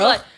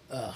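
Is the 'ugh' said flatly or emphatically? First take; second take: emphatically; flatly. First: It is said with more emphasis. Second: It is said flatly, without emphasis.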